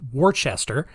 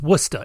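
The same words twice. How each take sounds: First: The word is said fully, following its spelling. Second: The word is said in a short, clipped form. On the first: This is how the spelling suggests it is said. "even though it's spelled W O R C E S T E R, which is, you know, more properly pronounced Worcester" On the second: This is how locals say it. "it is absolutely pronounced Worcester"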